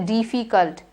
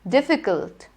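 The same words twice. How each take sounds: First: The first vowel is drawn out long. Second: The first vowel is kept short. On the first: The speaker calls it wrong. "Don't say difficult" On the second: The speaker calls it right. "It is I"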